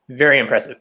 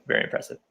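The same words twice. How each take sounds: First: Said in the usual way. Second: Breathy whispered repeat; whispered echo. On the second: Shown as a demonstration. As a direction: say it again under your breath. Echoes the compliment in a whisper.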